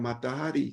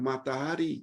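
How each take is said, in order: No difference in how they are said.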